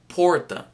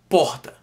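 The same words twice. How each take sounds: First: The R is said the Londrina way. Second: The R is said the Ceará way. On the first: "In Londrina, they would say porta" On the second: "that's how we pronounce it in Ceará"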